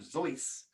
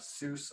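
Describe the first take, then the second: First: The name is said the German way. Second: The name is said the usual English way.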